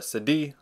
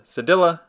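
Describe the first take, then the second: First: The word is said with a French pronunciation. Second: The word is said with an English pronunciation. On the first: "or in French" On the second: "is known as a cédille"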